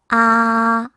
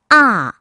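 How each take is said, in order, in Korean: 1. 이 음절은 일 성으로 소리 냅니다. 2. 이 음절은 사 성으로 소리 냅니다. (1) "일 성" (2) "사 성"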